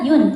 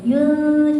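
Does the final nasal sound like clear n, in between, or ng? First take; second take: clear n; in between. First: The word ends with a clear n sound. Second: The final nasal is blurred between n and ng. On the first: The speaker calls it wrong. "bukan juga yun" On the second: The speaker calls it right. "di antara kayak keduanya"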